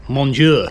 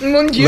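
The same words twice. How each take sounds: First: Mock French exclamation; French accent. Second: Over-the-top French, higher and louder; French accent. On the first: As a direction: say it like a hammy Frenchman. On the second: Retold or imitated. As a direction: exclaim it like a French chef. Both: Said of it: "The French accent".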